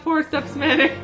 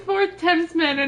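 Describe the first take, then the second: First: The second part of the name sounds like 'steps'. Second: The second part of the name sounds like 'tems'. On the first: The speaker calls it wrong. "not Four Steps Manor" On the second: The speaker calls it right. "It's Four Thames Manor"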